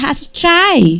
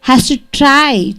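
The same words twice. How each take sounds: First: The words are reduced and run together. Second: Each word is said fully and separately.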